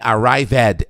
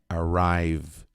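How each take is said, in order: First: The -ed ending is said as an extra syllable. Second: The -ed ending adds no extra syllable. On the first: The speaker calls it wrong. "Não é arrived" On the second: The speaker calls it right. "é arrived"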